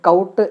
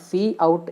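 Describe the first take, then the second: First: It is said as one syllable, rhyming with 'out'. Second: It is said as the letter C, then 'out'. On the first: "pronounce ചെയ്യുന്നത് കൗട്ട് എന്നല്ല" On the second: "സി ഔട്ട് എന്നാണ് ഞാനിവിടെ pronounce ചെയ്തത്"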